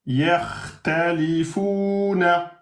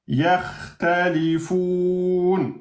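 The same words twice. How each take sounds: First: Yakhtalifuna slowly, long "foo", final -na sounded; full connected ending. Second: Yakhtalifoun very slowly, "foun" held four beats; four-beat pausal hold. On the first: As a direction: chant Yakhtalifuna through to its last -na. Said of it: "À l'arrêt devient". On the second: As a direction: drop the -na and stretch the end of yakhtalifoun. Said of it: "je fais quatre temps". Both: Shown as a demonstration.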